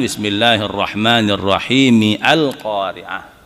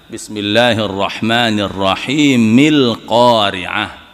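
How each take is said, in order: First: The opening 'a' is kept, pronounced 'al'. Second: The opening 'a' is dropped and linked as 'il'. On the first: The speaker calls it wrong. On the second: The speaker calls it right. "kalau disambungkan dengan bismillah"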